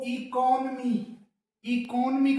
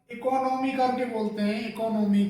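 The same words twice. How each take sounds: First: इकोनॉमी as "i-kon-mee", long final "ee"; correct pronunciation. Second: इकोनॉमी said as "i-ko-no-mi"; इकोनॉमी with a full "ko-no"; wrong pronunciation. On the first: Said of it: "सही pronunciation है वो". (सही उच्चारण: इकोनॉमी) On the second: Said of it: "सही नहीं है". (गलत उच्चारण: इकोनॉमी) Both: Shown as a demonstration.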